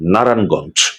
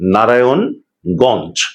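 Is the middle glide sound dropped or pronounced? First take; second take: dropped; pronounced. First: The middle glide sound is dropped. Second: The middle glide sound is pronounced. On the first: The speaker calls it wrong. "এই শব্দটিকে আমরা সহজ করে বলি" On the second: The speaker calls it right. "সেটিকে উচ্চারণে আনতে হবে"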